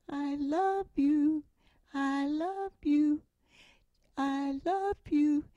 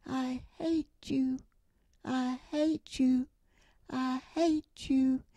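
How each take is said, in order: First: Slow, higher echoing call; echo from across the canyon. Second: Slow, drawn-out echo of a shout; echo from across the valley. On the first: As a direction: let it ring back like an echo, slowly. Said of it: "came the voice". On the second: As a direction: call it back like an echo off the mountain, slowly. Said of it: "Back across the valley came the words". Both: Retold or imitated.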